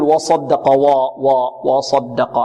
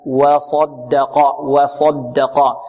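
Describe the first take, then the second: First: و of وصدق darkened toward "waw-"; heavy waw. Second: Thin وَ, then heavy ص in وصدق, drawn out slowly; light waw. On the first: Teacher shows what we do not say, heavy waw. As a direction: thicken the opening wa of وصدق like the ص. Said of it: "لا نقول". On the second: Teacher corrects the heavy version syllable by syllable, light waw. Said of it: "الواو مرقة والصاد مفخمة". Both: Shown as a demonstration.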